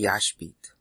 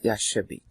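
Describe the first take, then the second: First: It is said with two syllables, no middle vowel. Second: It is said with three syllables, a middle vowel. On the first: The speaker calls it right. "I think it should be Yashbit" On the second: The speaker calls it wrong. "not Yashabit"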